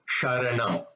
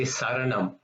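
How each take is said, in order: First: The word begins with a sh sound. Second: The word begins with a plain s sound. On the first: The speaker calls it right. "It should be sharanam" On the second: The speaker calls it wrong. "Sometimes they tend to say saranam, which is not the correct pronunciation"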